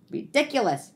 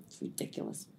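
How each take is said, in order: First: Said in the usual way. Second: Breathy whisper under the breath; It's ridiculous, whispered; whispered aside. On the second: Acted. Muttered aside, then repeated aloud.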